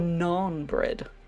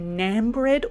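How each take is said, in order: First: The word naan has a non-American pronunciation. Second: The word naan has an American pronunciation.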